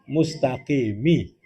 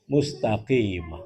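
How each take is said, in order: First: The word ends with an extra i vowel. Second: The word ends on the m consonant. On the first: The speaker calls it wrong. "Di mana letak salahnya" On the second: The speaker calls it right. "Seharusnya dibaca mustaqim"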